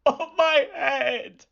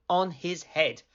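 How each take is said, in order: First: High, slow, wailing wolf voice; wolf wails as the basket hits him; wolf's pained cry. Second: Said in the usual way. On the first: A narrator's reading. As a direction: drag it out like a hurt, indignant wolf.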